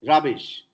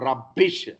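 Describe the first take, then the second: First: The middle b sound is short and single. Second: The middle b sound is held and doubled. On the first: The speaker calls it right. "No gemination possible in English" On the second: The speaker calls it wrong. "not rubbish"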